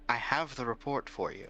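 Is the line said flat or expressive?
flat. It is said flat, without inflection.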